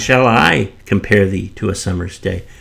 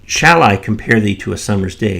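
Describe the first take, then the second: First: The stress falls on the word I. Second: The stress falls on the word shall. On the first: The speaker, not someone else, does the comparing. "shall the poet compare uh, thee as opposed to someone else comparing thee?" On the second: The speaker wonders whether to compare at all. "If you put the emphasis on that first shall"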